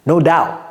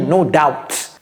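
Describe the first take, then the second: First: Doubt is said plainly, with no extra letter sounds. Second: Doubt is said with an extra letter sounded. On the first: The speaker calls it right. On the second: The speaker calls it wrong.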